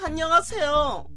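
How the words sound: The put-on voice sounds harsh and grating.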